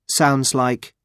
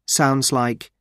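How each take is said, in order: No difference in how they are said.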